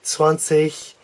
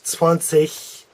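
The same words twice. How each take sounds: First: The word ends with a soft ch sound. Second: The same.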